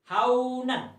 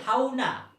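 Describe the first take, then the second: First: The word ends with an n sound. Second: The word ends with a long vowel. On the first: The reading continues without stopping. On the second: The reader stops on this word.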